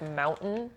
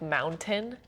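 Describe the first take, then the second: First: The T sound in the middle is dropped. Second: The T sound in the middle is pronounced.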